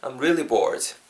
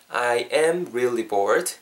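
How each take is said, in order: First: It is said at a natural speed. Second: It is said slowly and carefully.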